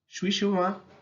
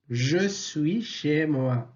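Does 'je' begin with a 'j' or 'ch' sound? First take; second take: ch; j. First: 'Je suis' is reduced with a 'ch' sound. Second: 'Je' is said fully with a 'j' sound. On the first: "Je se prononce ch ... À l'oral" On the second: "À l'écrit, on dit"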